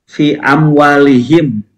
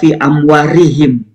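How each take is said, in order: First: The consonant before -ihim is a clear L. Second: The consonant before -ihim sounds like an R. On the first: The speaker calls it right. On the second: The speaker calls it wrong. "Karena tadi lamnya mirip pro ya"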